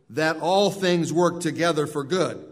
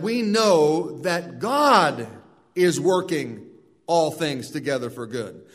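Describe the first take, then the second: First: Emphasis falls on "all things"; stress on all things. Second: Emphasis moved onto "God"; stress on God. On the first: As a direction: lean on "all things", keeping God light. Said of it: "The one has the emphasis on the all things". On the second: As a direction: hit "God" firmly, then let "all things together for good" fall away. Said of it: "The other has the emphasis on the God of the all". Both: Shown as a demonstration.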